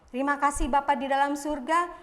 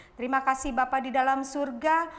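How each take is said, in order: Both takes have the same delivery.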